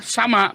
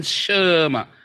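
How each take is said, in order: First: Sama with a full open a in the first syllable; contrasted reading. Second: Shema with sh and a stretched schwa; contrasted reading. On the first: Teacher contrasts two readings, demonstrating Sama with open vowels. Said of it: "Tadi bacanya apa? Sama, bukan". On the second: Teacher contrasts two readings, demonstrating stretched Shema. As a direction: draw out the first vowel of Shema, 'shuh-ma'. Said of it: "bukan Shema". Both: Shown as a demonstration.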